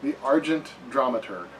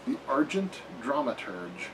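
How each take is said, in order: First: Dramaturg ending in a hard g; corrected pronunciation. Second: Dramaturge ending in a soft g; trial pronunciation. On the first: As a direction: say Dramaturg as DRAM-a-turg. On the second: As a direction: say Dramaturge as DRAM-a-turj. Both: Shown as a demonstration.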